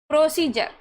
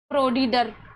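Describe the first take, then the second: First: The d is pronounced as a 'j' sound. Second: The d is pronounced as a plain 'd' sound. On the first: The speaker calls it right. "प्रोसीजर में डी को क्या पढ़ रहे हैं, ज पढ़ रहे हैं।" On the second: The speaker calls it wrong. "फिर प्रोडीडर ऐसे पढ़ने लग जाओगे। लेकिन ऐसे अब नहीं पढ़ना आपको"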